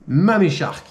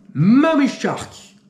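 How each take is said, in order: First: Said in the usual way. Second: Slow, high trailer-voice announcement of "Mummy Shark"; dramatic announcement. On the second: Acted. Presenting the next shark film to viewers, dramatic trailer voice. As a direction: drag out "Mummy Shark" like a horror-movie trailer.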